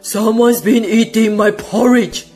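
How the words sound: It is said in a deep, growling voice.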